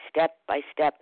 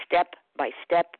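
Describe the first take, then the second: No difference in how they are said.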